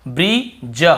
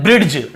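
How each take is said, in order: First: ब्रिज drawn out as bri-ja, no D; silent-D pronunciation. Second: ब्रिड्ज with a hard D before J; sounded-D pronunciation. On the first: Teacher correcting the usual reading, ब्रिज slowly without D. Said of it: "डी को नहीं पढ़ना". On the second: Teacher showing how we normally misread it, ब्रिड्ज with D. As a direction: say ब्रिड्ज, letting the D be heard. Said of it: "ड ऐसे पढ़ देते हैं". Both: Shown as a demonstration.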